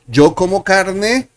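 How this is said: The voice rises at the end. It asks a question.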